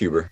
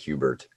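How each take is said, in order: First: The name ends without a t sound. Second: The name ends with a t sound. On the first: The speaker calls it right. "it's just Huber" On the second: The speaker calls it wrong. "everyone likes to put a T on it"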